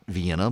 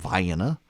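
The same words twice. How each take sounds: First: It uses the common, widely known pronunciation. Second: It uses the local Georgia pronunciation. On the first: The speaker calls it wrong. "not Vienna" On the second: The speaker calls it right. "but from Vienna"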